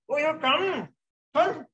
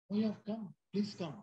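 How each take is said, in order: First: High-pitched, exaggerated sarcastic greeting; sarcastic welcome. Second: Softer, higher put-on welcome; feigned welcome. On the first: Host to an unwelcome visitor so the back row catches on, sarcastic welcome. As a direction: overdo the welcome, voice swooping way up. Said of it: "That's voice modulation". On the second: Speaker shows trainees how to greet an unwelcome visitor, feigned welcome. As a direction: quietly greet an unwanted guest, pitched up. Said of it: "why the voice is moving up and down". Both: Shown as a demonstration.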